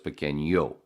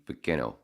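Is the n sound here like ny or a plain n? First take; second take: ny; plain. First: The n is followed by a y sound. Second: The n is a plain n sound. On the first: "with the squiggly, it goes" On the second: "without the squiggly, it would just be"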